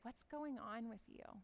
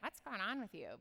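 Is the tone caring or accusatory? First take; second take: caring; accusatory. First: It is said in a calm, caring tone. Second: It is said in a sharp, accusatory tone.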